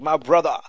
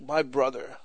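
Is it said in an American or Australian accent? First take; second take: Australian; American. First: It is said in an imitated Australian accent. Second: It is said in the speaker's own accent.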